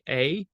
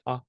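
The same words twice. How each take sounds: First: The vowel glides into a second sound. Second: The vowel stays one steady sound. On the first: The speaker calls it wrong. "you wouldn't say A in French" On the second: The speaker calls it right. "You would say A"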